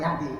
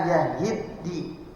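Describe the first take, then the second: First: The word has a single d and no vowel. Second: The word has an added vowel and doubled d. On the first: The speaker calls it wrong. "bukan yahdi" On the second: The speaker calls it right. "jadi amman amman la yahiddi"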